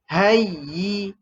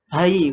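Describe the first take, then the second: First: The y sound is held and doubled. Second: The y sound is short and single. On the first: The speaker calls it right. "kena tahan sedikit ataupun tekan sedikit" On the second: The speaker calls it wrong. "Kalau tak tekan dia jadi hayi"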